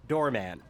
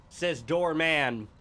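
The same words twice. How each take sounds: First: Said in the usual way. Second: "doorman" stretched slowly; drawn-out doorman. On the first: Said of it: "quick repeat". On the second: Shown as a demonstration. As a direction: say "doorman" slow and deliberate. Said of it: "deliberate slow emphasis".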